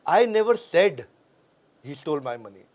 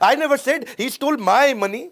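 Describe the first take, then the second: First: The stress is on the word said. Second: The stress is on the word my.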